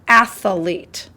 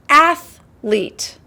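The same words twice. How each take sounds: First: It is said with an extra middle sound. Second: It is said without an extra middle sound. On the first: The speaker calls it wrong. "not athlete; They added an extra" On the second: The speaker calls it right. "It's athlete"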